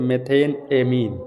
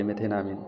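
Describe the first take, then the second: First: methane amine said as two distinct words; a clear word break between methane and amine; said as separate words. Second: मेथेनामीन run together as one word; मेथेनामीन in one unbroken, lower and softer run; joined as one word. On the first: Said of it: "अलग अलग बोलेंगे". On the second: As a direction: join it up smoothly into मेथेनामीन, no break. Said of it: "एक ही में जोड़ रहे हैं". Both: Shown as a demonstration.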